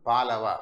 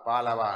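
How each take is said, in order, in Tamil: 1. இந்த வார்த்தை பேச்சில் சுருக்கமாகச் சொல்லப்படுகிறது. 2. இந்த வார்த்தை பேச்சில் சுருக்கமாகச் சொல்லப்படுகிறது.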